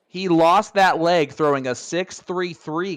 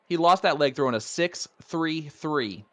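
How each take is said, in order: First: It is said loudly, with more force. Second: It is said at normal volume.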